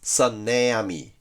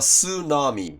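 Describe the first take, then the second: First: It begins with an 's' and an 'a' vowel. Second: It begins with an 's' and an 'oo' vowel. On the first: Some native speakers read the spelling this way. "サナミってS にして、しかもこのA をそのまま英語式のair と読む" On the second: This is the usual English pronunciation. "英語の発音はスーナミですからね。"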